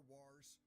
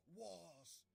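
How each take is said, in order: First: Said in the usual way. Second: "wars" louder and higher, with no r sound; orc-style wars. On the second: Shown as a demonstration. Narrator correcting himself for the orcs, "wars" in mock orc style. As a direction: shout "wars" as one open, r-less "wahz". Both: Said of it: "or as I should say".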